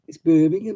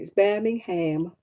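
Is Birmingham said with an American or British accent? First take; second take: British; American. First: Birmingham is said the British way. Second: Birmingham is said the American way.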